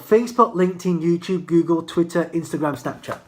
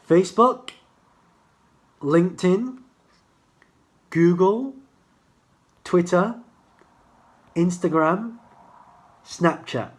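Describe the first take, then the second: First: The list is said fast. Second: The list is said slowly.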